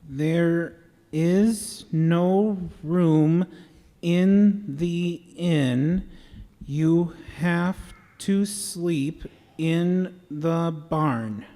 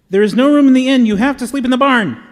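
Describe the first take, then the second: First: It is said slowly and deliberately. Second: It is said as fast as possible.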